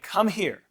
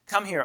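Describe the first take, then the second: First: Put-on firm, deliberate command to a child; serious parent voice. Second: Said in the usual way. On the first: Shown as a demonstration. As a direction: order it seriously, each word weighted. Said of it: "is your serious voice". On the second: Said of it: "normal voice is what I call it".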